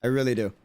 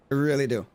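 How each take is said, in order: Both takes have the same delivery.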